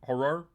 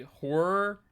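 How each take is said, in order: First: Horror? said as two syllables, hor-ror, rising. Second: Horror said slow as one syllable, hor. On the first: Streamer testing the chatter's two-syllable Horror?, rising. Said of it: "Oh, you say horror?". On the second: Streamer showing chat how he says horror, slow and one syllable. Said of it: "it's two syllab". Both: Shown as a demonstration.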